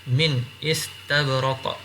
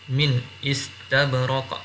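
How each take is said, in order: The two takes are said the same way.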